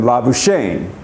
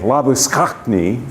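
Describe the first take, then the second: First: It is said with a French pronunciation. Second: It is said with a South African pronunciation. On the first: "as I believe the French would say it" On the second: "And you say labuschagne"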